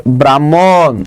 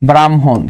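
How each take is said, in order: First: Said in the usual way. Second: ব্রাহ্মণ as "bram-hon"; low-pitched model "bram... hon" for ব্রাহ্মণ; correct pronunciation. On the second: Shown as a demonstration. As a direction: put the m before a sounded h in ব্রাহ্মণ. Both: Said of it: "এটা উচ্চারণ কি হবে বলেন তো".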